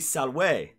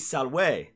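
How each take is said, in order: First: The middle consonant is a w sound. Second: The middle consonant is a w sound.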